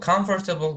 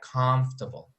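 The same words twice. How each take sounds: First: The word is said with four syllables. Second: The word is said with three syllables. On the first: The speaker calls it wrong. "Comfortable pronunciation is wrong" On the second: The speaker calls it right. "we make it three syllables, so we pronounce it like comfortable"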